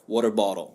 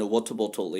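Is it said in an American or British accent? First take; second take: American; British. First: It is said in an American accent. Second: It is said in a British accent.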